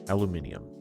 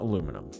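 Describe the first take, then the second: First: It is said with five syllables, British style. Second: It is said with four syllables, American style. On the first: The speaker calls it right. "because it's that spelling" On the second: The speaker calls it wrong. "I'm an American, but apparently, apparently we say it wrong"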